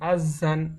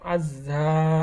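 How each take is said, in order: First: The word ends with an n sound. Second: The word ends with a long drawn vowel. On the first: The reading continues without stopping. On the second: The reader stops at the end of the verse.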